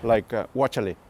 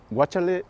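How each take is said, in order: First: Said in the usual way. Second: Guachale repeated higher with a rising end; word held up. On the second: Shown as a demonstration. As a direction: lift Guachale up and let it rise, as if presenting the word. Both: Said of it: "is watch out".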